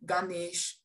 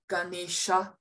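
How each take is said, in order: First: The word ends without the final vowel. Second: The word ends with a final a vowel. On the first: This is the modern form. "whereas you'd say" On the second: This is the traditional Sanskrit form. "in Sanskrit, you would say"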